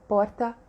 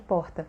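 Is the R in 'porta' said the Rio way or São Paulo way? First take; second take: São Paulo; Rio. First: The R is said in the São Paulo way. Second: The R is said in the Rio way. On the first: "elas têm o R" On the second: "em vez de"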